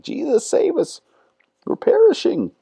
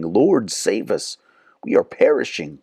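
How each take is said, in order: First: Squeaky, much higher mock panicked cry. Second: Said in the usual way. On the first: Disciples freaking out in the storm, mock panicked squeal. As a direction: ham up the frightened disciples' plea. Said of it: "freaking out and like".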